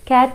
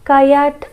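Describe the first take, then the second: First: The sounds are smoothly blended into one word. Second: The sounds are joined with an extra vowel inserted. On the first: The speaker calls it right. "క్యాట్ అని ఎలా వస్తుంది వాళ్ళకి?" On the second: The speaker calls it wrong. "కయాట్ అంటారు కదా"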